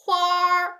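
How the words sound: It ends with an r sound, Beijing style.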